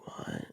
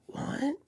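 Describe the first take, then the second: First: Hushed, disbelieving whisper; stunned whisper. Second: High-pitched, softer disbelief; incredulous question. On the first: Stunned reply to driver's refusal. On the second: Repeats stunned reply to driver. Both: Retold or imitated.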